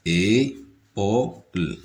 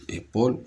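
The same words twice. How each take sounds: First: ÉPAULE broken into slow, separate syllables; Épaule said slowly, piece by piece; split into syllables. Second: Said in the usual way. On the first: Shown as a demonstration. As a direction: stretch out each syllable of Épaule. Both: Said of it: "trois syllabes".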